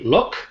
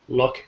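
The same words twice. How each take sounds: First: The final K is released strongly. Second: The final K is softened into the next word. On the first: "when we say the word separately, the K is very um, strong" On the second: "in the sentence we soften it a bit so we have flow"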